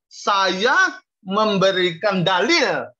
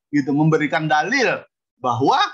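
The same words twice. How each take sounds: First: Slow, deliberate "saya memberikan dalil" with "dalil" weighted; stress on dalil. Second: Said in the usual way. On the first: Shown as a demonstration. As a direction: lay out "memberikan dalil" word by word, leaning on "dalil". (ucapkan "memberikan dalil" pelan dengan tekanan pada "dalil") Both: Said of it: "bukan berdalih ya".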